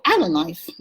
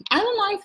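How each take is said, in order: First: Said in the usual way. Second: "Island life" sung out high with a falling tune; excited sing-song. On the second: Shown as a demonstration. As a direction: lift "Island" way up, then let it fall.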